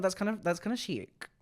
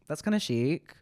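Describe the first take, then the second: First: Higher, put-on camp voice on kinda; camp approval. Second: Said in the usual way. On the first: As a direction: purr it like a fashion critic. Camp reaction to viewer.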